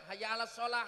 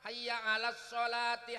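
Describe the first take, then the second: First: The last word ends in a breathy 'h' sound. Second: The last word ends with a 'ti' syllable. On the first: The speaker calls it wrong. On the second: The speaker calls it right.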